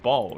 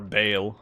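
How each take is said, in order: First: The name rhymes with 'ball'. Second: The name rhymes with 'bale'. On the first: "I say ball" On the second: "however you want to pronounce it"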